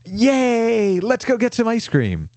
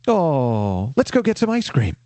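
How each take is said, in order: First: It is said in an excited, cheering tone. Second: It is said in a gentle, sympathetic tone.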